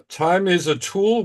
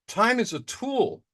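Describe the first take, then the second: First: Said in the usual way. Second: "Time is a tool" said slowly, with weight on "Time"; slow emphatic repeat. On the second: Shown as a demonstration. Caller repeating his motto to the meeting, slow and emphatic on "Time". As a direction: lean hard on "Time" and slow the whole motto down.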